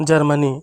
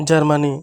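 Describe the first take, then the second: No difference in how they are said.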